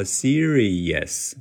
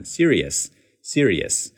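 First: Serious split into separate beats; word by word. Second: Serious at everyday speed, linked into "yes"; normal speed. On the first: Teacher shows the overly slow choppy serious. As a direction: say serious one syllable at a time. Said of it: "一字一顿地说". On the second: Teacher contrasts the normal-speed linked serious. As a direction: run serious together at normal pace. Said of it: "常速或者是快速的时候". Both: Shown as a demonstration.

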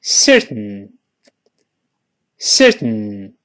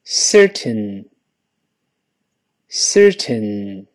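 First: Certain with tongue held on the ridge, air out the nose; quick certain, ten swallowed into the nose; nasal plosion certain. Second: Certain read slowly, the ten clearly sounded; careful slow certain. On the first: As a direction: say certain with no t burst, nose release. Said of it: "跟老师大声来一遍". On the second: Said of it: "跟老师慢慢读". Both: Shown as a demonstration.

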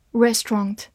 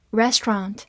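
First: "Restaurant" British-style, REST-ront; British accent. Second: American two-syllable "restaurant" with open ah; American accent. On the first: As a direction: give "Restaurant" its rounded British last vowel. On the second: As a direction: say "restaurant" the American way, REST-rahnt. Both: Shown as a demonstration. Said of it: "美式发音".

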